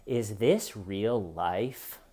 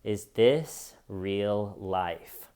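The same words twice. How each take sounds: First: Slow, lower, dazed question; mock stunned disbelief. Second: Very slow, lower, falling in dazed wonder; stunned disbelief. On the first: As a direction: ask it like the world just stopped making sense. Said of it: "he stands up and he says". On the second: Retold or imitated. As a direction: drag it out in blank disbelief. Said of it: "your first reaction is".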